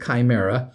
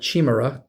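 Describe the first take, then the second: First: The first syllable is not pronounced as 'chi'. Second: The first syllable is pronounced as 'chi'. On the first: The speaker calls it right. "but it's no, it's a Chimera" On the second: The speaker calls it wrong. "we just pronounced it Chi"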